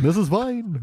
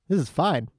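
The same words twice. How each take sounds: First: It is said in a Yogi Bear voice. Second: It is said in the speaker's own voice.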